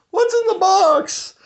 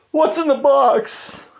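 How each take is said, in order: First: Much higher still, slow anguished shriek; hammed-up shrieking despair; even more desperate cry. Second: Much higher, slow anguished wail; hammed-up high cry of dread; desperate movie cry. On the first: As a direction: push the plea up into a frantic squeal. Repeat, pushed even further. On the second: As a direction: plead it like a man dreading the answer. Movie quote, growing despair.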